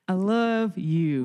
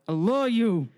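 First: It sounds warm and nice. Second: It sounds grudging and forced.

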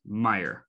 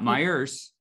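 First: The name ends without an s sound. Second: The name ends with an added s sound. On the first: The speaker calls it right. "it is Meijer" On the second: The speaker calls it wrong. "It's not Meijer's"

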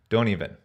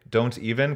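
First: The T after the N is dropped. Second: The T after the N is clearly pronounced.

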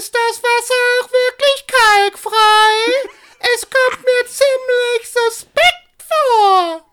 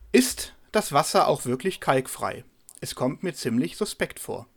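First: It is said in the film character's voice. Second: It is read in a plain neutral voice.

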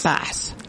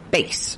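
First: It is said like the fish. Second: It is said like the musical instrument. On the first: The speaker calls it wrong. "not bass. That's a fish" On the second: The speaker calls it right. "They pronounce that bass"

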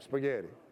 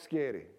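First: The word is said in full as spaghetti. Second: The word is shortened to sketti. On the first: The speaker calls it right. "let me say it right" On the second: The speaker calls it wrong. "How many of y'all like Sketti?"

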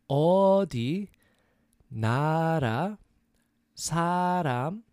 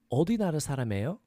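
First: It is said slowly. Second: It is said fast.

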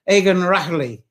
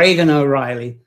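First: The name has an Irish-like pronunciation. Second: The name has an anglicized English pronunciation. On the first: "it's something like Egan Rahley" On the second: "I'm going to anglicize it a bit"

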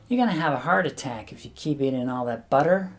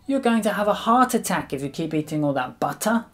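First: It is said in an American accent. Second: It is said in a British accent.

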